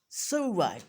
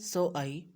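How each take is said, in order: First: A w sound links the two words together. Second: The words are said without a linking w sound. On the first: "natives pronounce so I ... they will mix a wow wow sound in it" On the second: "normally हम कहते हैं"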